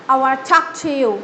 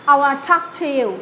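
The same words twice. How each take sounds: No difference in how they are said.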